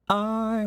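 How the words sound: The vowel starts with a sharp glottal catch. "You could do I with a glottal"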